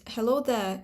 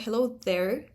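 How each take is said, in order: First: "there" ending on an open vowel, no R; non-rhotic. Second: "there" ending in a sounded R; rhotic R. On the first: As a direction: drop the R at the end of "there". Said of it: "this is a non-rhotic realization". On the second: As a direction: pronounce the final R of "there". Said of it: "It's not". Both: Shown as a demonstration.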